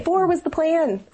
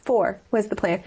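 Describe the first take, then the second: First: High, slow, incredulous repeat; echoed dismay. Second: Said in the usual way. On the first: Retold or imitated. Mother repeating her shock at a fifth pregnancy, high slow dismay. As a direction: stretch it out in disbelief.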